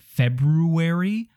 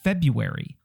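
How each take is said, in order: First: The first r sound is pronounced. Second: The first r sound is dropped. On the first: The speaker calls it wrong. "What is that first R doing there?" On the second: The speaker calls it right. "Nobody puts that first R in there"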